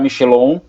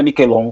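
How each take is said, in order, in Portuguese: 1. O sobrenome é dito com uma pronúncia à portuguesa. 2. O sobrenome é dito com uma pronúncia à italiana. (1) "Eu costumo falar que eu aportuguesei ele para Michelon" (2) "mas é Miquelon, correto?"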